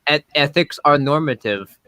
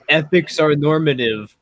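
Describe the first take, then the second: First: It is said in a Finnish accent. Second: It is said in his usual accent.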